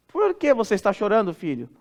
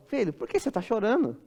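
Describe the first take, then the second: First: Mãe perguntando, caindo para baixinho em "filho"; pergunta por curiosidade. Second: Pergunta de pai, bem baixinho; consolo de pai. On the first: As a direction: pergunte ao filho querendo saber, baixando no fim. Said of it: "a primeira pergunta foi curiosidade". (pergunta curiosa de mãe) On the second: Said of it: "significa outra coisa". (consolo paterno em voz baixa) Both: Acted.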